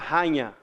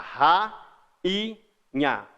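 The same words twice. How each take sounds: First: The A and I blend into one syllable. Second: The A and I fall in separate syllables. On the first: The speaker calls it wrong. "Você não fala rainha" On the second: The speaker calls it right. "O A fica numa sílaba, o I fica na outra"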